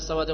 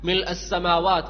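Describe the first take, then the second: First: The opening 'mi' is dropped, giving 'lassamawati'. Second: The full 'mil' is said before 'assamawat'. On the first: The speaker calls it wrong. "ചില ആളുകൾ" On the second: The speaker calls it right. "അതെന്താണ് അതിന്റെ ഉച്ചാരണം?"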